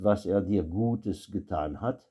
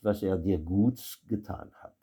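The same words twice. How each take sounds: First: Gutes is said with its final e sound. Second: Gutes is said without its final e sound. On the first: "avec un E" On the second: "et sans E, ça donnera"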